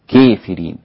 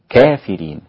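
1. الألف الممدودة مُمالة نحو الياء إمالة قوية. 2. الألف الممدودة مفتوحة تماماً، غير مُمالة. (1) "فيها إمالة" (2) "وفيها فتح"

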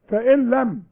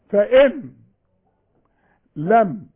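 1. تُحذف النون وتُدغم في اللام. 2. تُنطق النون، مع وقفة بعدها. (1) "عند الوصل كان النون غير موجوده" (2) "انطقوها اذا وقفتوا"

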